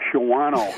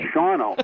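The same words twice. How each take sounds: First: The 'a' vowel after 'Sh' is pronounced. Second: The 'a' vowel after 'Sh' is dropped. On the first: The speaker calls it wrong. "they'd all say" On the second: The speaker calls it right. "no, it's Shawano"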